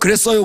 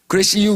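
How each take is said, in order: First: It is said in standard Seoul speech. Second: It is said in Chungcheong dialect. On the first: "서울에서는" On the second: "충청도에서"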